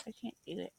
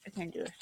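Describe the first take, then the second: First: Softer, giving-up murmur; defeated murmur. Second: Said in the usual way. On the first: Real, not acted. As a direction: let it fade in defeat. Repeated despair, softer.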